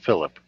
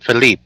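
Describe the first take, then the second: First: The name is pronounced the English way. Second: The name is pronounced the French way. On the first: "not Philip" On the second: "that's how the French pronounce it"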